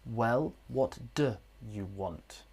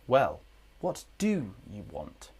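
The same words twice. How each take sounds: First: The word 'do' is reduced to a weak form. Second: The word 'do' keeps its full strong form. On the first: The speaker calls it wrong. "This is not what we'd say" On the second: The speaker calls it right. "with emphasis we must use the strong form"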